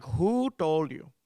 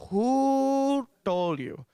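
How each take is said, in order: First: Slow, accusing mock interrogation; stretched WHO in an Indian accent; mad mom. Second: Very long, high WHO, held loud; hammed-up furious Indian mother's demand; mad mom escalating. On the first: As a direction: demand it as an angry Indian mother. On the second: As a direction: stretch WHO out high and slow. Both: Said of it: "never seen her this mad before".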